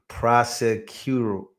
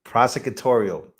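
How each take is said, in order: First: Prosecutorial drawn out slowly, syllable by syllable; careful slow prosecutorial; slow careful attempt. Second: Prosecutorial said cleanly as pro-se-cu-TOR-i-al; correct pronunciation. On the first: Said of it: "you're making this extremely difficult". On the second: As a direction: land prosecutorial right at last. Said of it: "There you go". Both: Real, not acted.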